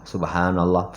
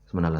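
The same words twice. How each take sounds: First: It is said slowly and clearly. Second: It is said fast and rushed.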